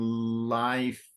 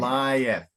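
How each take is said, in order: First: The vowels merge into a single syllable. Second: The vowels are separated into two syllables. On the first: The speaker calls it wrong. "you're tending to pronounce dost and life" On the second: The speaker calls it right. "but it's doest and lieth"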